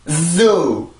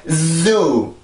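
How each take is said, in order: No difference in how they are said.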